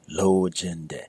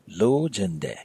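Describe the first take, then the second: First: The tones are fairly even throughout. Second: The tones are not even throughout. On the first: It means I want. The speaker calls it right. "where all your tones are fairly even" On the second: It means I want to make love, crudely. The speaker calls it wrong. "Don't let it become lojende"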